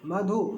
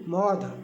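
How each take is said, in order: First: The word ends in a final 'u' vowel. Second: The word ends in a final 'dh' consonant. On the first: "उच्चारण में अंतर होता है" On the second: "मधु बोलेंगे मौध मिथिला मैथिली में"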